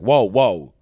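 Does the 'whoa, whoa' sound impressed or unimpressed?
unimpressed. It sounds unimpressed or negative. The reaction is not a good one. The speaker calls it wrong. "it might sound like"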